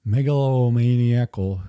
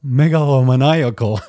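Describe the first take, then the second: First: Megalomaniacal slurred as mega-lo-meni-acal; stumbling attempt. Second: Megalomaniacal said in full as mega-lo-ma-NAI-acal, a bit louder; finally got it. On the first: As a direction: trips over megalomaniacal, mangling the middle. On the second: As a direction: nail megalomaniacal at last, every syllable in place. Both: Shown as a demonstration. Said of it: "there we go".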